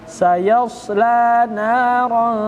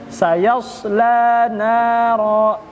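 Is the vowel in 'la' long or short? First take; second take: long; long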